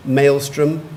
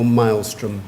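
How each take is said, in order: First: Maelstrom said MAYL-strum; first pronunciation. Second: Maelstrom said MILE-strum; second pronunciation. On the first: Pronouncer repeats the first option for the speller, Maelstrom as MAYL-strum. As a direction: say Maelstrom with a long "ay" in the first syllable. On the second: Pronouncer repeats the other option for the speller, maelstrom as MILE-strum. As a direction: say maelstrom with a long "i" in the first syllable. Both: Shown as a demonstration. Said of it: "You have two pronunciations".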